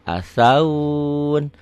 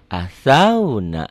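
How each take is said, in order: First: The 'au' vowel is drawn out, word cut off. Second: The 'au' vowel is short, flowing into 'na'. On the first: The reading stops at this word. "kalau berhenti" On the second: The reading continues on without stopping. "Nggak ada yang panjang"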